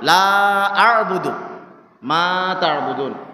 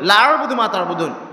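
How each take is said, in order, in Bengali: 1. 'la'-এর স্বরধ্বনিটি টেনে দীর্ঘ করা হয়েছে। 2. 'la'-এর স্বরধ্বনিটি ছোট করে পড়া হয়েছে।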